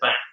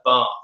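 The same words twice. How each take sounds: First: It is said with a northern English short vowel. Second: It is said with a southern English long vowel.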